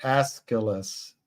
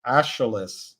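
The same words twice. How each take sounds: First: "Aeschylus" said ES-kuh-lus, with a hard k sound; "Aeschylus" with a clear k in the middle, ES-kuh-lus; corrected pronunciation. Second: "Aeschylus" read as ASH-uh-lus, sh where the k belongs; mispronounced name. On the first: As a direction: say "Aeschylus" carefully as ES-kuh-lus, stressing the first syllable. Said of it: "How do you say it?". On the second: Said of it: "I can't even pronounce the guy's name". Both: Shown as a demonstration.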